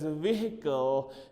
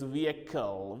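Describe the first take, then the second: First: The word is said the common local way. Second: The word is said the standard way. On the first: The speaker calls it wrong. "Please do not uh, pronounce it as vehicle" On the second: The speaker calls it right. "Its pronunciation is vehicle"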